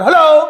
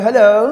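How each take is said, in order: First: The hello is said in a harsh, stern tone. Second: The hello is said in a soft, gentle tone. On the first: The caller is put off and ends the call quickly. "خوب کڑک دار ہلو" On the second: The person answering is approachable, so the talk drags on. "نرم لہجے میں کوئی آپ سے بات کر رہا ہے"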